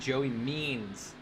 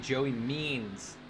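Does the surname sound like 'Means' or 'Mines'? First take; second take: Means; Means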